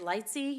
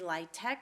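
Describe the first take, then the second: First: The acronym ends with a 'see' sound. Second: The acronym ends with a 'tech' sound. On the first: This is the local way of saying it. "I will say LITESY" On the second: Others in the community say it this way. "You may hear in the community LITEC"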